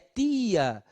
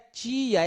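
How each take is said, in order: First: The t is plain, Northeastern Brazilian accent. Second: The t sounds like ch, not Northeastern.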